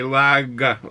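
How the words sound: It is said in a Boston accent.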